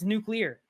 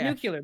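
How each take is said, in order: First: It has no added 'yoo' sound: nu-clear. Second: It has an added 'yoo' sound: nu-cu-lar. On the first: The speaker calls it right. "It's nuclear" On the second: The speaker calls it wrong. "Not nuclear. There's, there's no you there"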